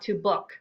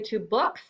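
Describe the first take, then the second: First: The final s sound of books is dropped. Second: The final s sound of books is pronounced. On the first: The speaker calls it wrong. "and not to book" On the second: The speaker calls it right. "I want you to say two books"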